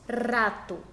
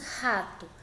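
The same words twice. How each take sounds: First: The first R is a light, soft tap. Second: The first R is a strong, rough sound. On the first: The speaker calls it wrong. "nós não falamos rato" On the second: The speaker calls it right. "nós falamos rato"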